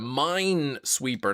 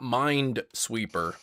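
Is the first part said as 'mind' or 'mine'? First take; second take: mine; mind. First: The first part is said as 'mine'. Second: The first part is said as 'mind'. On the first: The speaker calls it right. "it's a Minesweeper" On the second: The speaker calls it wrong. "not Mind Sweeper"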